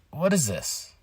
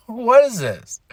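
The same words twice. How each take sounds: First: Soft, deflated disbelief; quiet bafflement. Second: High, exasperated question; exasperated bafflement. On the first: Fan reacting to the backstage scene, quietly baffled. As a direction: ask it softly, at a loss. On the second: Fan reacting to the backstage scene, exasperated. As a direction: pitch it up in disbelief. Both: Retold or imitated.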